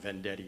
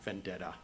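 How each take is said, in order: First: The name ends with an 'ee' sound. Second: The name ends with an 'ah' sound. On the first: The speaker calls it right. "my name is pronounced Vendetti" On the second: The speaker calls it wrong. "not Vendetta"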